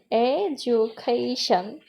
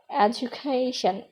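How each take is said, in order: First: education very slowly in four beats, e-du-ca-tion; teacher's drawn-out breakdown of education, part by part; split into syllables. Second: Said in the usual way. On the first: Shown as a demonstration. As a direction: sound out every syllable of education. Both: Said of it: "তিনের চেয়ে বেশি অথবা অধিক".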